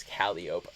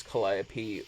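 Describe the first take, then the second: First: Calliope as KAL-ee-ope; Calliope without final ee. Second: Calliope as kuh-LIE-uh-pee; usual Calliope pronunciation. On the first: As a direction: end Calliope like "rope". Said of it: "never heard anybody pronounce it as". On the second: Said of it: "it pronounced as". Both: Shown as a demonstration.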